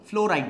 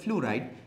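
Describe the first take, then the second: First: The vowel after fl is an o sound. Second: The vowel after fl is a u sound. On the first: The speaker calls it wrong. "ফ্লোরাইড না" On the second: The speaker calls it right. "উচ্চারণটা হচ্ছে রস্যুকার হবে, ওকার হবে না"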